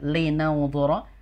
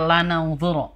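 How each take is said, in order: First: The first syllable has the vowel 'i'. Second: The first syllable has the vowel 'a'. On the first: The speaker calls it right. "harokatnya harusnya di bawah ya" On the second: The speaker calls it wrong. "tadi bacanya lanaunzuro. Terbalik ya"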